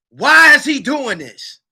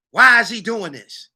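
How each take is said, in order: First: Louder, slow, higher demand; emphatic repeat. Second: Said in the usual way. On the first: Real, not acted. Asking the audience why, loud and slow. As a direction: lean into the why.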